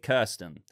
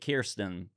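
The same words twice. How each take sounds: First: The name is said with a non-American pronunciation. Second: The name is said with an American pronunciation. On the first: "we would pronounce it" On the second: "Americans and in the show pronounce it"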